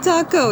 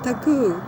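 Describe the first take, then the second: First: The word is said with an American pronunciation. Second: The word is said with a Japanese pronunciation. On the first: The speaker calls it wrong. "It is not taco" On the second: The speaker calls it right. "it's taku"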